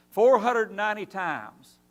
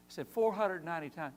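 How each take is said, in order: First: "Four hundred ninety times" slow and loud, each word weighted; emphatic number. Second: Said in the usual way. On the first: Real, not acted. Preacher drives home Jesus' answer to Peter, slow and loud.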